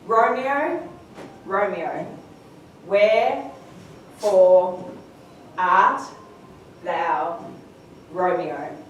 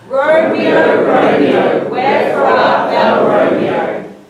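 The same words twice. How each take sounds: First: It is said slowly, one word at a time. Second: It is said at a normal pace.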